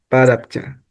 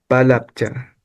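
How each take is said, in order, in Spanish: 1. La segunda consonante es un sonido R. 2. La segunda consonante es un sonido L.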